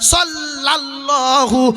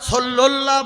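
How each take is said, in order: First: The second syllable is said as 'la'. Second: The second syllable is said as 'lu'. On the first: The speaker calls it right. "আছে সাল্লাল্লাহু আলাইহি ওয়াসাল্লাম" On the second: The speaker calls it wrong. "সল্লুল্লাহ বলা যাবে না"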